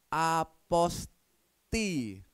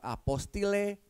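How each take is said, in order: First: The word ends on a vowel, no L. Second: The word ends with a longer '-tile' ending. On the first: The speaker calls it right. "tapi apa? Aposti" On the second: The speaker calls it wrong. "dibacanya bukan apostile"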